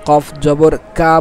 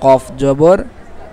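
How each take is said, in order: First: The final syllable ends in an open 'a' vowel. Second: The final syllable ends in a rounded 'o'-like vowel. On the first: The speaker calls it wrong. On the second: The speaker calls it right.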